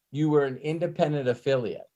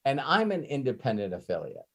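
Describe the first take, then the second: First: Were stressed, falling at the end; firm reminder that you were an independent affiliate. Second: I'm stressed, a bit softer and falling; quiet firm turn to and I'm an independent affiliate. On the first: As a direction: lean on the word were to make the point. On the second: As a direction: lean on the word I'm to set it against you. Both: Retold or imitated. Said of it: "Hey, listen".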